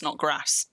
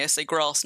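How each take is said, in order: First: Grass with a short northern "a", rhyming with ass; northern English accent on grass. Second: Grass with a long southern "ah", like "grahss"; southern English accent on grass. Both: Shown as a demonstration. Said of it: "the southern way as opposed to the northern way".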